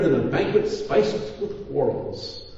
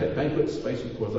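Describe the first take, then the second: First: Said in the usual way. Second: A quick, softer repeat of banquet spiced with quarrels with a chuckle; amused repeat. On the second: Retold or imitated. Pastor relishing a Bible phrase for his congregation, amused chuckle. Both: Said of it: "I kinda like that".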